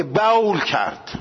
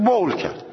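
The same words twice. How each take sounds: First: بول with an open diphthong, "ba-ol"; un-Arabic vowel. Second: بول with a single rounded o, "bol"; بول with no split in the vowel; natural vowel. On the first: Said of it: "هیچ عربی راجع به بچهش که". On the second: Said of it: "میگه بول کرد". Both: Shown as a demonstration.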